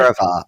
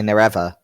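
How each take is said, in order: First: It is said in a non-American accent. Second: It is said in an American accent. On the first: "we want to say Nerevar" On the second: "they would say Nerever"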